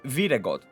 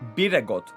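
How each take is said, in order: First: The word begins with a V sound. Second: The word begins with a B sound. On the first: "if you turn like the B into the Greek V" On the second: "I would read it like Biragot"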